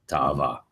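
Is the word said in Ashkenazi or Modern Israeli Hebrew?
Israeli. Two separate a vowels with a break between them.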